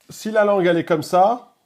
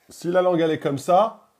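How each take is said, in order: The two takes are said the same way.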